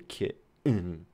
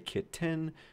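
First: The middle sound is a glottal stop. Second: The middle sound is a clear t.

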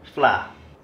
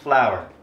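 First: It is said in a Singaporean accent. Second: It is said in an American accent.

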